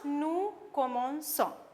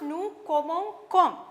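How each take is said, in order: First: The c is said as a soft s sound. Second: The c is said as a hard k sound. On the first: The speaker calls it right. "to make the pronunciation nice" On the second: The speaker calls it wrong. "we can't pronounce this properly"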